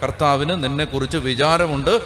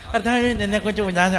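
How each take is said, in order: First: It is said in a serious, earnest way. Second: It is said in a casual, careless way. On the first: The words are meant with full conviction. The speaker calls it right. "ഗൗരവമായിട്ട് പറയണം" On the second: The words are not taken to heart. The speaker calls it wrong. "അങ്ങനെ പറയരുത്"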